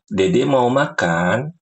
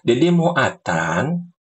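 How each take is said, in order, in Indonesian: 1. Kata terakhir diucapkan dengan jelas dan normal. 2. Kata terakhir diucapkan dengan cadel seperti bayi. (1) "ngomong biasa aja"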